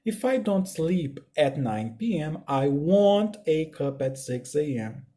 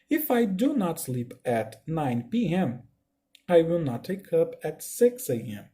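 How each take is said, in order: First: "don't" and "won't" each as one syllable, slow; contracted negative. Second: "do not" and "will not" as separate words, slow; full negative form. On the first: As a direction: run "don't" and "won't" together. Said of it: "Essa contração vai se dar da seguinte forma". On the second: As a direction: keep every word apart, unhurried. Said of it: "porém não tem contração de nada". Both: Shown as a demonstration.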